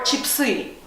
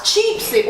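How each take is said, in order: First: Chip-SY, final syllable stretched and stressed; stress on last syllable. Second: CHIP-sy, first syllable drawn out and stressed. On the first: Teacher asking where the stress goes, last-syllable stress. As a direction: lean on the end of chipsy, chip-SEE. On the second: Teacher asking where the stress goes, first-syllable stress. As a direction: lean long on the CHIP of chipsy. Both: Shown as a demonstration. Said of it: "how to pronounce chipsy or chipsy".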